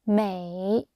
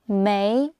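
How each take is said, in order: First: The pitch dips low, then rises. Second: The pitch rises steadily upward. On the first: "red V for victory" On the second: "blue finger up"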